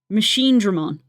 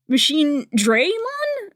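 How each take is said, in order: First: The middle syllable sounds like 'drah', no 'y'. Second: The middle syllable sounds like 'dray', with 'y'. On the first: The speaker calls it right. "It's Machine Dra Mon" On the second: The speaker calls it wrong. "it said Machine Draymon. And I was like, huh?"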